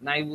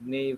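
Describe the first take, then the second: First: The first vowel sounds like 'eye'. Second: The first vowel sounds like 'ay'. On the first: The speaker calls it right. "নাইভ উচ্চারণ করি এটাই better" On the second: The speaker calls it wrong. "আপনারা যেটা উচ্চারণ করেন"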